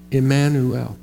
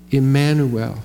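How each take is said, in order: Both takes have the same delivery.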